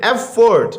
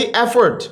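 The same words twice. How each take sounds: First: "एफर्ट" as two distinct beats, ef-fort; syllable by syllable. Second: Said in the usual way. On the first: Shown as a demonstration. ("एफर्ट" کو دو حصوں میں الگ الگ) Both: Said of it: "दो syllable हैं".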